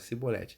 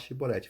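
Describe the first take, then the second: First: The word begins with an s sound. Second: The word begins with an sh sound. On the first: The speaker belongs to the group that cannot say it. The speaker calls it wrong. "falavam Cibolete" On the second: This is the password form the speaker's group uses. The speaker calls it right. "eles não conseguiam falar Shibolete"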